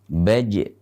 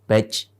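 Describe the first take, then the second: First: The final j ends with a light bounce. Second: The final j ends with a forced breath puff. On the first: The speaker calls it right. "jim tersebut harus dibaca dengan pantulan" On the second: The speaker calls it wrong. "menghentakkan nafas pada saat mengucapkannya ... ini keliru"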